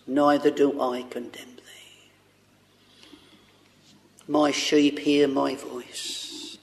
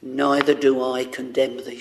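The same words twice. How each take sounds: First: A breathy, unvoiced hush, slow; slow, tender whisper of forgiveness. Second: Said in the usual way. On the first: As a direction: whisper it tenderly and slowly, as the voice of mercy. Preacher voicing Jesus, whispered.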